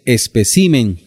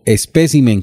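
First: The stress is on the syllable ci. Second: The stress is on the syllable pe. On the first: "con acento en la I" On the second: "con acento en la segunda E"

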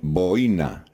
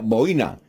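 First: The stress is on the first syllable. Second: The stress is on the second syllable. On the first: This is how it is said in Spain. "en España se dice boina, sin acento en la I" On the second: This is how it is said in Colombia. "y en Colombia, boina"

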